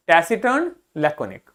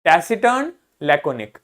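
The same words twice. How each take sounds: The two takes are said the same way.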